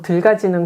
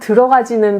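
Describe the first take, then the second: First: The word is said contracted, dropping a syllable. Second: The word is said in full, all syllables. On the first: The speaker talks in a regional, nonstandard way. The speaker calls it wrong. "들가지는 그러잖아요" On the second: This is the standard pronunciation. The speaker calls it right. "들어가지는 발음도 제대로 못하고"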